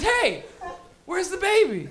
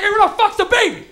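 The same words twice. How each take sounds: First: Higher-pitched puzzled call; mild mock concern. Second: Loud, high outburst; mock freaked-out shout. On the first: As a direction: act out someone looking for a baby. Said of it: "your first reaction is". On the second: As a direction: yell it as a baffled bystander. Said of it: "when you don't see the baby".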